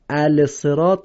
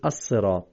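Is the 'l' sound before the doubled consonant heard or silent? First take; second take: heard; silent. First: The 'l' sound is pronounced before the consonant. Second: The 'l' sound is silent before the consonant. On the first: The speaker calls it wrong. "الصراط نمیگیم" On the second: The speaker calls it right. "میگیم الصراط"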